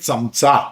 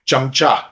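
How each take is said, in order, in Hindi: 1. यह शब्द मराठी उच्चारण के साथ बोला गया है। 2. यह शब्द हिंदी उच्चारण के साथ बोला गया है। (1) "मराठी में चमचा" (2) "ये हिंदी में ठीक है"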